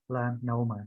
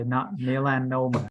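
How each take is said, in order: First: "melanoma" stressed on the first syllable, me. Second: "melanoma" said with the weight pushed onto lan; wrong stress. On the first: Teacher modelling for a student, stress on the first syllable. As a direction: put the weight on me in "melanoma". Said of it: "So the me is where you put your em". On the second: Teacher showing the wrong version to a student, misplaced stress. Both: Shown as a demonstration.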